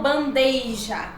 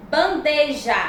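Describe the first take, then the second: First: "bandeja" with an added i: ban-DEI-ja; wrong pronunciation. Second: "Bandeja" slowly, plain e before j; correct pronunciation. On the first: Teacher showing the improper form, "bandeja" as bandeija. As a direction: slip an i glide into "bandeja". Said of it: "e não bandeja". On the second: Teacher giving the proper form, clean slow "Bandeja". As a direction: say "Bandeja" with no i glide. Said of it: "a forma adequada e a forma inadequada". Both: Shown as a demonstration.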